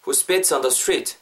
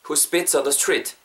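The two takes are said the same way.

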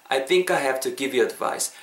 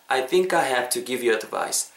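Both takes have the same delivery.

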